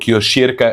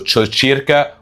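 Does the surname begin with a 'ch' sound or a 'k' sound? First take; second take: k; ch. First: The surname begins with a 'k' sound. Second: The surname begins with a 'ch' sound. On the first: The speaker calls it wrong. "وليس بيترو كيوشيركا كما ينطق فيه البعض" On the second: The speaker calls it right. "بيترو تشوتشيركا"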